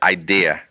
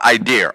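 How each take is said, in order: First: The word ends in a plain vowel without r. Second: The word ends with an added r sound. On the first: The speaker calls it right. "It's with an A" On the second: The speaker calls it wrong. "I used to call it idea all the time"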